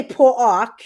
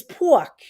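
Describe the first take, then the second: First: "pork" stretched into two syllables, "por-ok"; overdone "pork" as "paw-rok"; mocked accent pronunciation. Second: Said in the usual way. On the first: Shown as a demonstration. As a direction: break "pork" in two with an extra vowel. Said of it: "you make fun of my accent". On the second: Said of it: "And I don't say pork. It's pork".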